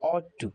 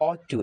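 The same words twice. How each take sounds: First: Ought to with an open "aw" vowel; correct pronunciation. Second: Ought to with "ow" as in out; common mispronunciation. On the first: Teacher correcting students' mistake, correctly pronounced with "aw". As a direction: say ought to as "awt tu". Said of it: "এটার উচ্চারণ হবে". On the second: Teacher quoting the second, common version, mispronounced with "ow". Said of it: "এটা আমরা অনেকেই ought to বলে থাকি". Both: Shown as a demonstration.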